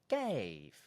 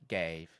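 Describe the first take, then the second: First: The pitch starts high and falls low. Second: The pitch stays fairly flat on the word. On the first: The speaker calls it right. "more like this. going really high and finishing really low" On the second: The speaker calls it wrong. "instead of gave"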